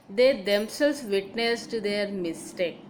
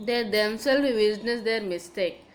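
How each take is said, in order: First: They set apart and stressed, slow sentence. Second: Said in the usual way. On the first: Shown as a demonstration. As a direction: repeat it slowly, leaning on They. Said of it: "that is they". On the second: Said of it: "emphasis is given on the particular noun".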